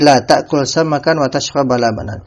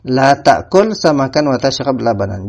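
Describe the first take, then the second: First: The verb tashrab ends with a short vowel. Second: The verb tashrab ends without any vowel. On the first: Only combining the two is forbidden. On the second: Both are forbidden outright.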